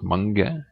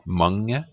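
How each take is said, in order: First: The g is pronounced as a hard stop. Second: The g blends weakly into the ng sound. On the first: The speaker calls it wrong. "it's not mange" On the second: The speaker calls it right. "the G is very weak. It's like in the ring"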